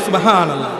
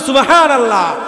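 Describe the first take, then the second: First: It is said at normal, softer volume. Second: It is said louder and more forcefully.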